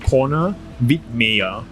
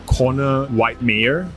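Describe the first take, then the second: First: The name is said with a German pronunciation. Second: The name is said with an American pronunciation. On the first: "in German it's called Connor Wittmeyer" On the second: "I think it's American pronunciation"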